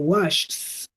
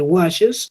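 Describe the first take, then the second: First: The word ends with only an s sound. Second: The word ends with an extra syllable, es. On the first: The speaker calls it wrong. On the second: The speaker calls it right.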